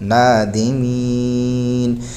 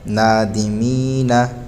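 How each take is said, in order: First: The word ends on a silent final consonant. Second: The word ends with a short final vowel. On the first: The reader stops at the end of the verse. "आगे वक़्फ़ नादिमीन" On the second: The reader carries on without stopping. "नून ज़बर ना नादिमीना"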